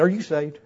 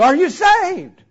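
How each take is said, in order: First: Said in the usual way. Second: High, loud, insistent question; worked-up retold plea; urgent questioning. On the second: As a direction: demand the answer at a raised pitch. Same question repeated more urgently.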